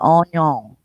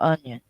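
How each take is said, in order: First: Onion is said in a Louisiana accent. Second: Onion is said in a standard accent. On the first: "He would say onion" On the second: "for onion"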